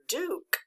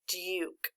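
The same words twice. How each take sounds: First: The vowel is a plain oo sound. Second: The vowel is a long yoo sound. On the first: The speaker calls it wrong. "people get lazy in our speech and we don't make the sounds correctly" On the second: The speaker calls it right. "That really is making a long U sound, so we correctly say the word Duke"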